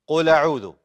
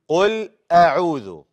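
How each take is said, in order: First: The words run together without a glottal stop. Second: A glottal stop separates the two words. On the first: The speaker calls it wrong. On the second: The speaker calls it right.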